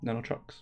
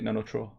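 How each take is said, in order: First: The final x sound is clearly pronounced. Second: The final x sound is left silent. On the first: The speaker calls it right. "but no, Nanotrox" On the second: The speaker calls it wrong. "you don't say the X"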